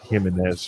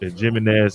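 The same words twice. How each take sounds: First: The name begins with a soft H sound. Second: The name begins with a hard J sound. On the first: The speaker calls it wrong. "not Jimenez, for example, like in other cultures" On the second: The speaker calls it right. "she pronounced the J"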